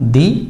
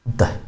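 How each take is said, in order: First: The word ends in a long 'ee' vowel. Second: The word ends in a short 'uh' vowel.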